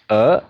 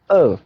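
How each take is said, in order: First: The pitch rises from middle to high. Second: The pitch falls sharply from high to low. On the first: "now second" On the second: "now fourth"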